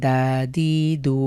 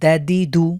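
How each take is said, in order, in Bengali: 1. স্বরধ্বনিগুলো টেনে লম্বা করে উচ্চারণ করা হয়। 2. স্বরধ্বনিগুলো ছোট, টেনে উচ্চারণ করা হয় না। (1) "অনেকেই এটাকে দেখবেন এভাবে পড়বে দ্যা-দি-দু না, এভাবে পড়া যাবে না" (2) "কোনোভাবেই যেন টান না হয়"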